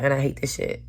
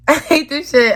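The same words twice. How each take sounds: First: Said in the usual way. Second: A bitter laugh breaking through the words. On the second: Real, not acted. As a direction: repeat it laughing, higher and louder. Repeats line with a laugh.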